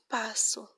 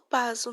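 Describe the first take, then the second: First: The middle consonant is a hissing s sound. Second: The middle consonant is a buzzing z sound. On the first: The speaker calls it right. "não passo" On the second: The speaker calls it wrong. "Se escrever com apenas uma, um S, eu falo passo"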